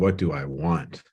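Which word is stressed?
want. The stress falls on the word want.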